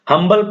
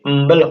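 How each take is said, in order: First: The word begins with an H sound. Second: The word begins with a vowel, no H sound. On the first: The speaker calls it wrong. "हम्बल नहीं होगा" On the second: The speaker calls it right. "ये अम्बल होगा"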